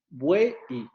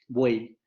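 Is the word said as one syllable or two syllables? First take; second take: two syllables; one syllable. First: The vowels are split into two syllables. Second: The vowels run together in one syllable. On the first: The speaker calls it wrong. "nosotros no pronunciamos así esa palabra" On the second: The speaker calls it right. "Es una sola sílaba y decimos buey"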